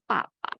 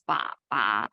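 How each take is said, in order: First: The syllables carry the high level first tone. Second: The syllables carry the dipping third tone. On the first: "the first tone is ba ba" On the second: "The third tone is ba ba"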